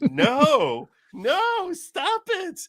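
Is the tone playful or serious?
playful. It is said in a playful, teasing tone.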